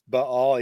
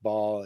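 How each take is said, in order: First: The word is said with two syllables. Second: The word is said with one syllable. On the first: "properly pronounced Baal ... a definite two syllables there" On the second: "usually pronounced Baal in, in Christian circles"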